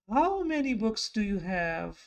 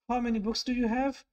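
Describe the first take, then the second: First: The question is asked in a surprised tone. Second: The question is asked in a neutral tone. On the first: The speaker is surprised by the number. "we can say that you are showing your surprise" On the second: The speaker simply wants to know the number. "It's a question"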